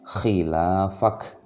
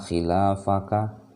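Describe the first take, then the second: First: The final vowel is dropped. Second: The final vowel is pronounced. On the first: The speaker calls it right. "Kita kita harus berhentikan khilafak" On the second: The speaker calls it wrong. "tidak lagi dibaca la yalbathuna khilafaka. Tidak seperti itu"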